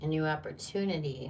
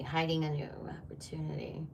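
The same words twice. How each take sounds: First: Said in the usual way. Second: Soft secretive whisper. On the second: Acted. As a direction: breathe it like a secret. Repeats the phrase as a whisper.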